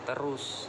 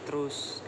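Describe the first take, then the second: First: The vowel after the first t is kept. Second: The vowel after the first t is dropped. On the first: "patah kata terus" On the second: "bunyi vokal e di tengah kata dihilangkan"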